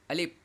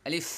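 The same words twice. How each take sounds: First: আলিফ ending on a p, lips shut; wrong lip-closed ending. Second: আলিফ ending in an airy f; short আলিফ with a clear final f; lips not touching. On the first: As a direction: close both lips at the end of আলিফ, like "alip". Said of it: "দুই ঠোঁট যদি না লাগে তাহলে". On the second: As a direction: keep the lips apart and let the f of আলিফ blow out. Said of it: "দুই ঠোঁট যদি না লাগে তাহলে উচ্চারণ হবে". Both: Shown as a demonstration.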